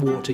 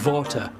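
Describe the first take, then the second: First: It is said with a plain w sound. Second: It is said with a German-sounding v.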